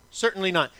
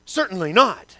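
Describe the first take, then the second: First: Said in the usual way. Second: "Certainly not." louder, with a firm fall on "not"; emphatic denial. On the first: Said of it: "always with an exclamation point". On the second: Shown as a demonstration. Pastor reads Paul's emphatic answer with a louder, falling "not". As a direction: punch "not" like an exclamation point. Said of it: "always with an exclamation point right there at the end".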